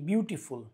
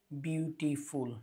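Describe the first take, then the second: First: Said in the usual way. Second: বিউটিফুল slowly, softly split into beau-ti-ful; syllable by syllable. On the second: Shown as a demonstration. Teacher showing that the word has several syllables, বিউটিফুল said syllable by syllable. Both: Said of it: "we have beauty and then full".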